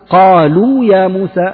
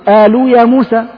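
First: The first sound is the classical deep qaf. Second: The first sound is a colloquial dialect variant. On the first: The speaker calls it right. "هذه هي القاف الفصيحة" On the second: The speaker calls it wrong. "هذه لهجات في لهجات الناس العامية"

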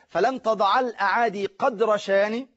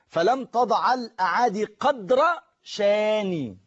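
First: The last word keeps its full vowel ending. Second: The last word is stopped short without its ending. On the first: "لكن العرب ما كانوش بيقفوا كده" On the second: "لو أنا حبيت أنطقها بالوقف"

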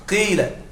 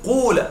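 First: The first vowel is a pure i sound. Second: The first vowel is a pure u sound. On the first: "أن تقلب الألف ياء وتكسر الفاء كسرة خالصة" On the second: "أن تقلب الألف واوا وتضم الفاء ضمة خالصة"

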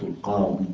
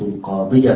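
First: The final ya ends silent with no vowel. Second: The final ya carries a short a vowel. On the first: The speaker stops at this word. "خلاص نقف إيه بالسكون" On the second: The phrase continues without a stop. "هنحركه بالفتحة إيه وصلا"

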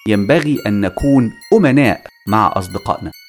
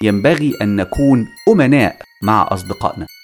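First: The stress is on أمناء. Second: The same.

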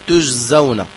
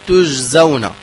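The two takes are said the same way.

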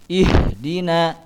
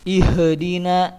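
First: The h sound is smooth without an echo. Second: The h sound is bounced with an echo. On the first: The speaker calls it right. "Tapi dibacanya ihdina" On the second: The speaker calls it wrong. "tidak boleh dikolokolahkan, maksudnya dipantulkan"

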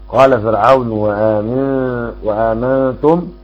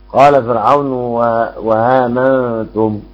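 Both takes have the same delivery.

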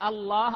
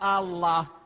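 First: The opening vowel is short and plain. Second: The opening vowel is drawn out long. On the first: It is a statement. The speaker calls it right. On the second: It turns into a question. The speaker calls it wrong.

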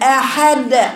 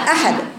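First: The final d sound is stretched and held long. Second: The final d sound is released short. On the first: The speaker calls it wrong. "مط صوتها وتطويله عن حد ... خطأ" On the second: The speaker calls it right. "هي أحد أحد"

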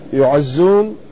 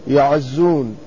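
First: The first vowel is a rounded u sound. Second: The first vowel is an open a sound. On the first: The speaker calls it wrong. "لا يعزون، يكون هذا مبني للمجهول" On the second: The speaker calls it right. "يكون الياء مفتوحة"

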